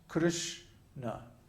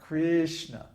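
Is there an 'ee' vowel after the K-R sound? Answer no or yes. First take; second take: no; yes. First: No 'ee' vowel follows the K-R sound. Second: An 'ee' vowel follows the K-R sound. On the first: The speaker calls it right. "both syllables are short" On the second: The speaker calls it wrong. "there's no I sound. It's not Krishna"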